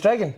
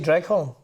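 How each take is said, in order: First: The name is said like the word 'dragon'. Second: The name is said as 'dreg-horn', as spelled. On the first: This is how locals really say it. "but it's Dragon" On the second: Outsiders who are listening can follow it. "I say Dreghorn"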